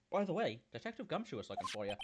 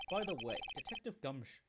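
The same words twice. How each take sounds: First: Redone character line. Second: Said in the usual way. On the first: Acted. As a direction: snap back into character on the retake.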